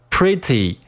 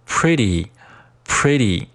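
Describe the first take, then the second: First: Said in the usual way. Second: "pretty" with the tt softened to a quick d; voiced T. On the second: Shown as a demonstration. Teacher drilling learners, slow "pretty" with a voiced t. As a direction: say "pretty" as "priddy", slowly. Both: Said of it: "pretty进行浊化".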